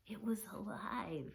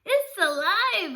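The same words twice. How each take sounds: First: Soft, hushed wonder at the find; softly awestruck; awed hush. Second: High, loud, drawn-out cry; boy shouting to his family; excited shout. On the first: A narrator's reading. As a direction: breathe it in quiet amazement. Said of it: "I couldn't believe my eyes". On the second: Acted. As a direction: burst in yelling the news. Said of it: "I shouted".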